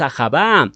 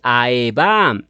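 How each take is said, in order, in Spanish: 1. Se oye un sonido fuerte de h entre las vocales. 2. No se oye ninguna consonante entre las primeras vocales. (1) "No es Ajabá" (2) "Esta es la correcta transliteración"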